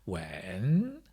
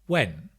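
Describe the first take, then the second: First: The pitch falls and then rises on the word. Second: The pitch falls on the word. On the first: "Or a falling rising tone" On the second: "Or a falling tone"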